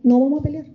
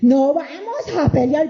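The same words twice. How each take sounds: First: It is said in a calm, kind tone. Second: It is said in a sharp, confrontational tone. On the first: It settles the disagreement. The speaker calls it right. "Pero en un buen tono" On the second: It provokes more arguing. The speaker calls it wrong. "no como antes que me decía"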